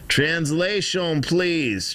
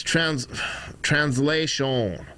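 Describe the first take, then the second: First: Slow, higher mock Russian accent on "Translation". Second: Slow, lightly accented "translation" in a mock Russian accent. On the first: Streamer asking for a translation in a slow mock Russian accent. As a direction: drag out "Translation, please" in a put-on Russian accent. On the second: Streamer demonstrating how to say "translation" with a slight mock Russian accent. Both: Shown as a demonstration. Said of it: "That's how you say it with an accent".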